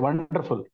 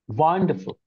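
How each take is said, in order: First: All syllables get about equal prominence. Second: One syllable is strong, the others barely heard. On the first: "We say with equal prominence" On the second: "pronounced by a native speaker"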